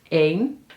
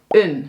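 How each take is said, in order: First: The vowel is long and full. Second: The vowel is short and reduced.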